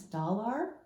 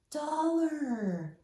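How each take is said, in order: First: "Dollar" with a full AR, rising as a question; puzzled mispronunciation. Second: "Dollar" with a reduced "ler" ending, high and drawn out; gasp, then a high realizing "Dollar", ending in ler; corrected pronunciation. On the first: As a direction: query "Dollar" said as spelt, doll-ARR. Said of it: "that doesn't make sense". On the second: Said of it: "We have to change the sound". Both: Shown as a demonstration.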